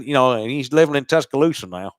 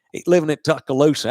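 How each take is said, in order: First: Said in the usual way. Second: Mock Alabama accent. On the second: Sports host mimics the Alabama locals, mock Alabama accent. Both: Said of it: "That's a different accent".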